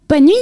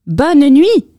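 First: Little mouse voice; mouse slipping in a goodnight. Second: High, loud mouse voice; squeaky and loud; louder mouse goodnight. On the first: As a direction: slip in a quick squeaky goodnight. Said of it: "glissa la souris". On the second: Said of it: "un peu plus fort". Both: A narrator's reading.

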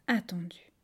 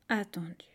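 No difference in how they are said.

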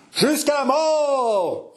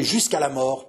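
First: High, drawn-out battle cry; captains' roar. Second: Said in the usual way. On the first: Acted. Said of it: "rugirent les capitaines". (rugissement guerrier des capitaines)

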